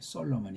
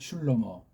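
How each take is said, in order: First: The name is said as So-lo-mon. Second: The name is said as Shlo-mo. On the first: This is the Western or Latin form of the name. The speaker calls it wrong. "이건 정말 준 족보도 없는 엉터리 소리예요" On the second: This is the Hebrew form of the name. The speaker calls it right. "우리는 슐로모라고 읽으면 돼요"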